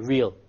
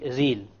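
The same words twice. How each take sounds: First: The r is a smooth English r. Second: The r is tapped with the tongue tip. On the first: "It's not going to be real" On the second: "if I said real with the Arabic Ra"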